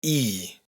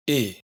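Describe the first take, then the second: First: "I" said as a long "eee"; long closed i. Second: "i" as a quick "ih"; short open i. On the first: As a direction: hold "I" as a tight "ee" sound. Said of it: "una i larga que siempre es cerrada". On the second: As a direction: say "i" brief and lax, as in "it". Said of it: "una i corta que siempre es abierta". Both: Shown as a demonstration.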